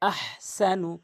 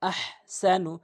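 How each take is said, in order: No difference in how they are said.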